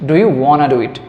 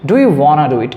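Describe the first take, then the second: First: The words 'want to' blend into 'wanna'. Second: The same.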